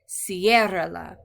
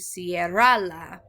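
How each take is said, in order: First: The stress is on the first syllable. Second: The stress is on the second syllable. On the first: The speaker calls it right. "with the stress on the first syllable" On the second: The speaker calls it wrong. "we don't want to change it to cierrala"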